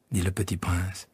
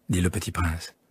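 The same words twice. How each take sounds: The two takes are said the same way.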